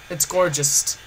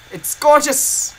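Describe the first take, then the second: First: Said in the usual way. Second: Slow, high and loud admiration; excited. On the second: Real, not acted. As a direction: gush over it, drawn out. Showing off find, repeated.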